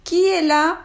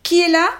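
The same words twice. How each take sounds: First: Put-on higher, louder old woman calling; a frail granny calling through the door; old grandmother voice. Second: Gruff wolf voice. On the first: Grandmother from her bed. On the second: Acted. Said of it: "la grosse voix du loup".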